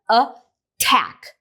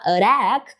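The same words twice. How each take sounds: First: The T is a full, clear T sound. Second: The T is a quick flap like a light D. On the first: The speaker calls it right. "Aí o T permanece" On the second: The speaker calls it wrong. "você não vai conseguir falar attack"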